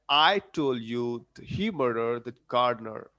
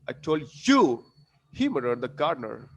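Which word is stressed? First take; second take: I; you. First: The stress is on the word I. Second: The stress is on the word you. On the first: "I'm putting stress on I in the beginning" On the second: "Then I would put stress on you"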